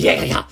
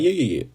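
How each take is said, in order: First: High, mock-manic yeahs; crazy psychopath. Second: Mock-calm agreement; calm psychopath. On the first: A fan shows psychopaths turning crazy, mock-manic. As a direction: burst out in a crazed, pitched-up imitation. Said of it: "I could also be crazy". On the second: A fan shows how calm psychopaths talk, mock-calm. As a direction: run the yeahs together in a contained way. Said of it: "They're calm".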